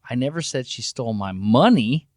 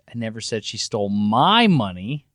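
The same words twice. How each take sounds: First: The word "money" carries the main stress. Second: The word "my" carries the main stress. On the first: Something other than money was stolen. "she stole my stuff. It just wasn't my money" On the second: Someone else's money was stolen. "She stole Chuck's money"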